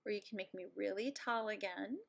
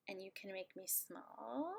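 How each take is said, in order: First: Said in the usual way. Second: Whispered small voice, as if shrunk; tiny whisper. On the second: Acted. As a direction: shrink the voice down to match small. Shrinking herself on screen.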